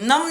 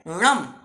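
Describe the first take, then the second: First: It begins with a dental n sound. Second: It begins with a retroflex n sound. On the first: The speaker calls it wrong. "नम नहीं है" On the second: The speaker calls it right. "ण प्राकृत में आता है"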